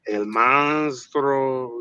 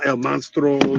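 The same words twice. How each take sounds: First: It is said slowly and deliberately. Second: It is said at normal speed.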